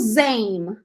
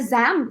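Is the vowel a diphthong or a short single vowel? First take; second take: diphthong; short vowel. First: The vowel glides as a diphthong. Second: The vowel is short and single. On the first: The speaker calls it right. "Essa palavra eu pronunciei como Zame" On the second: The speaker calls it wrong. "que ela não podia ser Zam também?"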